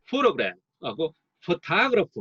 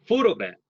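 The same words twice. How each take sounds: First: Photograph twice very slowly, first with PHO stressed, then with TO stressed; contrasting stress demo. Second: Photograph said slowly, main stress on PHO and secondary stress on GRAPH; careful teaching demo. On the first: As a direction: compare the two stress patterns slowly. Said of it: "잘 비교해 보십시오". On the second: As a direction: drawl photograph, PHO strong and GRAPH lighter. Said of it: "이건 보조강세예요". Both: Shown as a demonstration.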